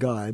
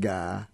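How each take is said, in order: First: The vowel is a full gliding i sound. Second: The vowel is flattened in the Southern way. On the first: "as in guy" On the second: "becoming ga"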